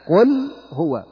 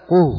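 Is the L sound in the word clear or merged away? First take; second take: clear; merged. First: The L is clearly pronounced before the H sound. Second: The L is merged into the following H sound. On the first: The speaker calls it right. "لا، قل هو" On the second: The speaker calls it wrong. "لا تقل قه"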